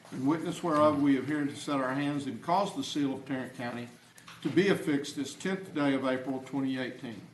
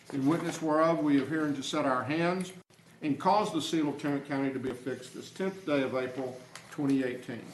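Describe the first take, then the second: No difference in how they are said.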